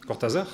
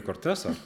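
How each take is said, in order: First: Cortázar with voiced Z and stressed final syllable; French pronunciation. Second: Cortázar with an S sound for the z; Spanish pronunciation. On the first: Writer mimicking someone at Gallimard, French pronunciation. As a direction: say Cortázar the French way, ending on -zar. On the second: Shown as a demonstration. Writer quoting someone at Gallimard, name in Spanish. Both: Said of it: "qu'il prononçait plutôt à la française".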